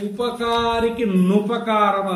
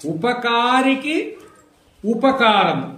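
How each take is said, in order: First: The words are joined; the second begins with nu. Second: The words are separate; the second begins with u. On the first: "రెండు కలిపి చెప్తే" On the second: "విడిగా పలికినప్పుడు ఊ పలకాలి"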